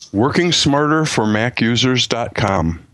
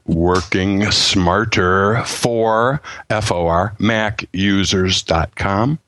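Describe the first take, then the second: First: It is said at normal speed. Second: It is said slowly.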